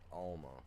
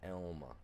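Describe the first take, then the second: First: The first vowel sounds like 'ah'. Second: The first vowel sounds like 'eh'. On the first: The speaker calls it wrong. "not Alma" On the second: The speaker calls it right. "make sure everybody gets the pronunciation right. Elma"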